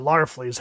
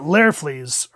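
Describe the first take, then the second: First: Larfleeze said with "Lar" as first syllable; alternative pronunciation. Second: Larfleeze said with "Lair" as first syllable; first pronunciation. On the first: Reviewer offering another reading of the name, saying Larfleeze as LAR-fleeze. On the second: Reviewer unsure of the character's name, saying Larfleeze as LAIR-fleeze. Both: Shown as a demonstration. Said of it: "however you pronounce it".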